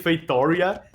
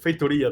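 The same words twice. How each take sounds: First: It is pronounced with an English-style accent. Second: It is pronounced with a Portuguese accent. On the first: It copies how game commentators say it. "I've watched so many Age of Empires castings that I say Feitoria" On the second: It is the native pronunciation. "instead of saying Feitoria. That's how it's said in Portuguese"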